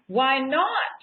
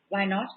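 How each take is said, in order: First: Why not? as a bold order, a bit louder, rising on not; commanding decree. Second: Said in the usual way. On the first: Shown as a demonstration. Speaker shows the group how to decree it, emphatic. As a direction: declare it like a command. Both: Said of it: "you have to say it like that".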